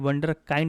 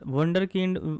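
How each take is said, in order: First: The second part has a long 'ai' vowel. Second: The second part has a short 'i' vowel. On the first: The speaker calls it wrong. "नहीं" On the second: The speaker calls it right. "इसको पढ़ते हैं"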